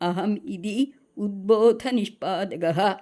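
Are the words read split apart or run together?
split. The words are read split into separate parts. "அப்படிதான் நம்ம பிரித்து படிக்கணும்"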